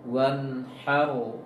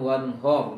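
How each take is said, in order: First: The vowel after h is a clear a. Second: The vowel after h is a dark o. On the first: The speaker calls it right. "nanti wanharu" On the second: The speaker calls it wrong. "jangan wanhor"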